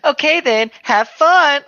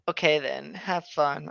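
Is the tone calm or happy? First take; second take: happy; calm. First: It is said in a very happy tone. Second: It is said in a calm, quiet tone.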